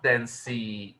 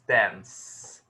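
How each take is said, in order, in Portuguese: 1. Um som de vogal extra é acrescentado no final. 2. A palavra termina no som da última consoante. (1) "Not dancey" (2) "it's dance"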